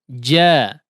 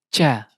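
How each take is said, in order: First: The consonant sounds like a clear 'j' sound. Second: The consonant sounds close to a 'ch' sound. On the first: The speaker calls it right. "yang digunakan adalah lidah bagian tengah" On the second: The speaker calls it wrong. "Cenderung ke huruf C"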